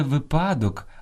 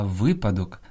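First: Випадок stressed on ПА, slow; wrong middle stress. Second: Випадок stressed on ВИ; stress on first syllable. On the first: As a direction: say ви-ПА-док. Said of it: "найчастіше неправильно наголошуєте". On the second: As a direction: say ВИ-па-док. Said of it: "Слід казати". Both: Shown as a demonstration.

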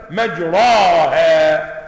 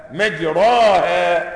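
First: مجراها drawn out very slowly and loud, the second a leaning toward e, "majrēhā"; Quranic imala. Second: مجراها said slowly with a plain open a, "majrāhā"; full open a. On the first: Reciter demonstrating to students Hafs's single imala word, slow and loud. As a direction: stretch مجراها and tilt its middle a toward e. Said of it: "أنت قلت مجري". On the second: Teacher contrasting plain open a with the imala reading. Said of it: "ولو نطقتها ألفا لقلت مجراها". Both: Shown as a demonstration.

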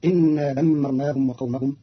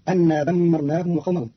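First: إنا said "innaa", opening on i; إنا with "in" in place of "an"; kasra on hamza. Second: Said in the usual way. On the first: Shown as a demonstration. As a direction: begin إنا with an i, not a. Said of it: "بكسر الهمزة". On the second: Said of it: "قرأ قالون كلمة أن".

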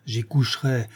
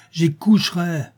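First: Said in the usual way. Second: "j'y coucherai" pitched high and punched; emphatic repeat. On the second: A narrator's reading. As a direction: hammer "j'y coucherai" higher and more forcefully. Vow repeated more forcefully.

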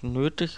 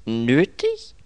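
First: Said in the usual way. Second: NÖTIG as a loud, high rising question; startled "Nötig?", pitched up; incredulous echo. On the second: Acted. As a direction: query "Nötig" in disbelief. Echoes the word in disbelief.

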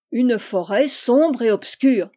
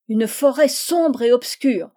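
First: Slow, loud, approving repeat. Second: Slow, loud, eager cry; eager outcry. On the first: Teacher repeats the pupil's answer, approving and slow. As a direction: echo it back with approval. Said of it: "répéta le professeur, approuvant évidemment". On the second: Eager pupil cries out the answer to his teacher, loud and slow. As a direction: blurt it out, bursting to answer. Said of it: "s'écria le troisième". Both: A narrator's reading.

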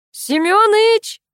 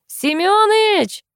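First: Very high, drawn-out holler of the name; full-throated call. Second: Very high, drawn-out holler; full-throated call. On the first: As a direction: holler for a neighbour out of sight. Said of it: "Лена повторила попытку". (протяжно звать во всё горло) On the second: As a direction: call a neighbour from afar, stretching the name. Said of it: "во всё горло крикнула". (протяжный крик во всё горло) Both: A narrator's reading.

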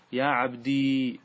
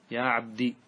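First: "عبدي" ending in a long held ī; sustained silent yā'. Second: "عبدي" ending in a short i; short kasra ending. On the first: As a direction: stretch the final yā' of "عبدي" into -dii. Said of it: "بإثبات الياء الساكنة". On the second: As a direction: end "عبدي" on a brief kasra, yā' dropped. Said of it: "بالكسرة". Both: Shown as a demonstration.

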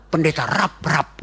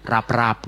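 First: "rap, rap" broken into two separate hard words; wrong split reading. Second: "rap-rap" said as one smooth, soft, joined word; soft joined name. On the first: Preacher mocking how people misread his name, hard split "rap, rap". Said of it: "Terus dibaca keras-keras kan". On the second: Preacher showing the right reading of his name, soft "rap-rap". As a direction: say "rap-rap" gently, linked, lower. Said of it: "Tulisnya nyambung dan bacanya lembut". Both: Shown as a demonstration.

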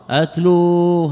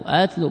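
First: أتلوا with a long drawn-out "oo"; أتلوا as "atluuu"; original with waw. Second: أتلوا with a short final "u"; أتلوا as "atlu", no long "oo"; without waw. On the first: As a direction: stretch the final waw of أتلوا. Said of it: "هذا الأصل". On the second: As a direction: cut the last vowel of أتلوا short. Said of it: "بدون واو". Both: Shown as a demonstration.

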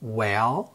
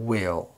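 First: "Well" with an open short e, rising; "Well" open e, not i. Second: "will" with a clear short i, falling; "will" short i, not e. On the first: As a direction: say "Well" with the light e sound. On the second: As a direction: say "will" with a distinct i sound. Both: Shown as a demonstration. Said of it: "ننطقهم بالترتيب".

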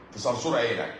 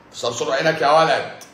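First: Said in the usual way. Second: Louder, higher, hammed-up threat; mock threat. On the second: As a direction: bark it like a playful menace. Repeats threat, punched up.

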